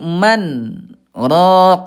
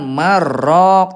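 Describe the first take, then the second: First: A short pause without breath separates the words. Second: The two words run together without a break. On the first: The speaker calls it right. "tapi man rok" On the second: The speaker calls it wrong. "bukan marok"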